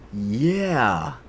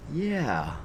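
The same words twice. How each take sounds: First: A drawled American "Yeah"; imitating the voice actor's American "Yeah"; American accent. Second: A higher, drawled American "Yeah"; American accent. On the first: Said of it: "with the most American accent ever". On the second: Retold or imitated. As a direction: mimic the Japanese actor's American "Yeah". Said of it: "an American accent when he said".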